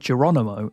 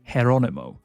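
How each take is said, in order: First: The name starts with a hard English J sound. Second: The name starts with a breathy H-like sound. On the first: This is how an English speaker reads it. The speaker calls it wrong. "if you're a lazy Englishman like me, you're probably going to be pronouncing this as Geronimo" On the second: This is how it is said in Spanish. The speaker calls it right. "in Spanish, ... the J is pronounced more like an H"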